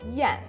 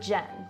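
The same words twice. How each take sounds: First: The name is said the way Czech speakers say it. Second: The name is said the usual American way.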